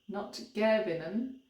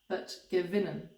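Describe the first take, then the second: First: The stress is on the first syllable, ge. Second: The stress is on the second syllable, win. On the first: The speaker calls it wrong. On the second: The speaker calls it right. "Usually it's the first syllable of the main verb that is stressed"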